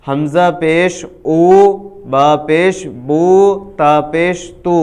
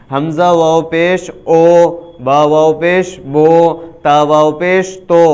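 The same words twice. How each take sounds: First: "او" "بو" "تو" said with a clear u sound; correct maroof pesh. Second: "او" "بو" "تو" said with an o sound, not u; wrong majhool pesh. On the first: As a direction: demo of the right way, pesh as u in "بو". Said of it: "معروف پیش کی آواز ظاہر ہوگی". (پیش کو معروف پڑھنا، "بو" میں واضح او (u) کی آواز) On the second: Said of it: "اس طرح بالکل نہیں پڑھنا ہے". (پیش کو مجہول پڑھنا، "بو" میں او کی آواز) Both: Shown as a demonstration.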